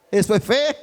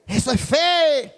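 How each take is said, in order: First: "eso es fe" said loud and firm; emphatic declaration. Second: "Eso es fe" higher, loud and slow, each word stretched; slow proclamation. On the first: Pastor declaring to the brothers, loud and firm. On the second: Pastor repeating the lesson to the church, high and slow. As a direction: lift "Eso es fe" high and draw it out. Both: Shown as a demonstration.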